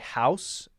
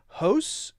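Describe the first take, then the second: First: The vowel is a full ow sound. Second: The vowel leans toward an oo sound. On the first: This is how Americans say it. "as Americans would say" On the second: This is how Canadians say it. "they they do tend to say"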